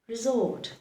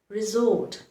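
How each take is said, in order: First: The middle consonant is a buzzing Z sound. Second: The same.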